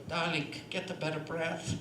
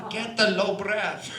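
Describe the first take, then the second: First: Lightly voiced, lower teacherly aside; a hint of a bespectacled old coach, pitched down; Olga. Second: Loud, slow coaching command; hammed-up old coach, loudly stretching each word; Olga. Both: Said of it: "Olga should be sitting there with her cataract glasses on saying".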